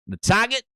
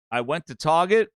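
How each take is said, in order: First: Boston "The Target", TAR-gah with no r, pitched up; Boston accent, "Target" as TAH-gah. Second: Said in the usual way. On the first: Shown as a demonstration. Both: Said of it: "that's how they say it in Boston".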